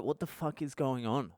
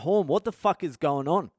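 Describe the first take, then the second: First: Hushed, softer retold question; quietly re-enacted shock; stunned disbelief. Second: Higher, urgent retold question; mildly raised, alarmed voice; alarmed demand. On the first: Stunned, unable to register news. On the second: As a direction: re-enact demanding answers from a mate. Alarmed, demands answer from mate.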